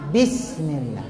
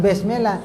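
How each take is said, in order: First: Bismillah with a clean i, a bit lower; the corrected bismillah, i kept pure; correct I vowel. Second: Bismillah said as besmela, with muddy e vowels; the wrong way, bismillah sounding like besmela. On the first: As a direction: say bismillah with clear i sounds. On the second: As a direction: say bismillah with a lax e in place of i. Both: Shown as a demonstration. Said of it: "Jangan juga bismillah".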